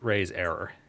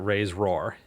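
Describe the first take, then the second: First: It is said as raise error, with full error. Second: It is said as raise roar, dropping the error vowel. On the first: The speaker calls it right. "It's raise error" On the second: The speaker calls it wrong. "I'm not going to pronounce it raise roar"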